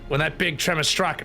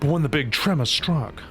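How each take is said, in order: First: It is said in an Australian woman's accent. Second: It is said in a sultry voice.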